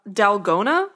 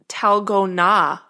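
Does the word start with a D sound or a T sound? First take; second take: D sound; T sound. First: The word starts with a D sound. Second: The word starts with a T sound. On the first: The speaker calls it wrong. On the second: The speaker calls it right.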